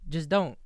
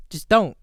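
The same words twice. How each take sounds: First: Said in the usual way. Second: Loud, emphatic order. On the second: Real, not acted. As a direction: bark it out as a firm warning.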